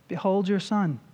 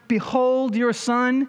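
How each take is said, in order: First: It is said in a defeated, ashamed tone. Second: It is said in a confident, triumphant tone. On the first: The son has failed and brought shame. The speaker calls it wrong. "Was this a kind of, ... I failed. ... I have brought shame on the family name" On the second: The son is accomplishing salvation. The speaker calls it right. "I think this is the kind of mother-son code ... who is right now accomplishing your salvation"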